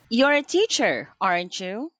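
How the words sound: The pitch rises at the end. The speaker is really asking and is unsure. "if your voice goes up at the end"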